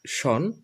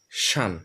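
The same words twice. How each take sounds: First: শন with a rounded "o" vowel, "shon"; old pronunciation. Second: শান with an open vowel, "shan", falling; new pronunciation. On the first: Teacher recalls the old ending, শন as "shon". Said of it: "আগে আমরা যেটা উচ্চারণ করতাম". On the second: Teacher models the new ending, শান as falling "shan". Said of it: "এখন আমরা উচ্চারণ করব". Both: Shown as a demonstration.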